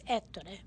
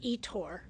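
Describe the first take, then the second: First: The name is said with Italian pronunciation. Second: The name is said with English pronunciation. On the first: "In Italian, it's Ettore" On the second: "the English pronunciation"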